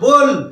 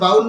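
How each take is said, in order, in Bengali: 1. স্বরধ্বনিটি 'go' শব্দের 'oh' এর মতো শোনায়। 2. স্বরধ্বনিটি 'cow' শব্দের 'ow' এর মতো শোনায়। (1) "এটা সঠিক উচ্চারণ বোল" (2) "এটা কিন্তু সঠিক উচ্চারণ বাউল নয়"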